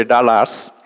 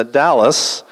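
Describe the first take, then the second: First: Dallas as Indians say it, lower, Dallas with open ah vowels, tahlahs; mock Indian Dallas, tahlahs with flat open vowels; Indian pronunciation. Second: Said in the usual way. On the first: Comic imitating how Indians say Dallas, tahlahs. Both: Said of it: "or as the Indians say".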